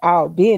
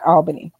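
First: It is pronounced the way South Georgians say it. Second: It is pronounced the way New Yorkers say it. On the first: The speaker is a local from South Georgia. The speaker calls it right. "if you're from there, you have to say it like that" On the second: This is how people from New York say it. The speaker calls it wrong. "Not Albany. No, those are New York people"

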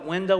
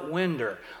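First: It is said the standard way, ending in 'oh'. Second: It is said the East Texas way, ending in 'er'.

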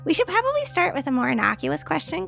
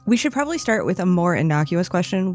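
First: It is said in Rosie's voice. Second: It is said in the speaker's own voice.

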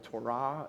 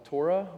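First: It is said with a Hebrew pronunciation. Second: It is said with an English pronunciation.

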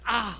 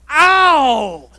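First: It is said quietly. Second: It is said loudly.

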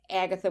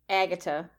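First: The middle consonant is a th sound. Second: The middle consonant is a plain t sound.

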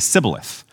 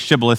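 First: The word begins with an s sound. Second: The word begins with an sh sound. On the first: "you say sibboleth" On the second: "you don't say shibboleth"

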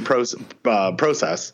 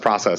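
First: It is said with a Canadian pronunciation. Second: It is said with an American pronunciation. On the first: This is how the speaker said it before moving. "this used to be process" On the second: This is how the speaker says it after moving. "now it's process because I've lived here"

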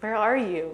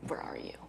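First: It sounds warm and inviting. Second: It sounds stern and threatening.

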